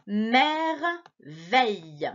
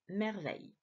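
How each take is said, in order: First: Merveille stretched very slowly, syllable by syllable. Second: Said in the usual way. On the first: Shown as a demonstration. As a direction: sound out Merveille for a child. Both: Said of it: "essaie de lire avec moi".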